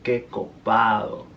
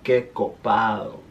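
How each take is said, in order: First: The D sound is slurred and soft. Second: The same.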